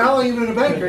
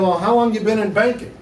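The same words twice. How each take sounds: First: Said in the usual way. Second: Feigned interest with the real opinion leaking through; inner thoughts showing. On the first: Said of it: "I didn't say it like that". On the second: Retold or imitated. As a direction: ask it as if barely hiding what you think. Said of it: "I didn't say it like that, but that's what I was thinking".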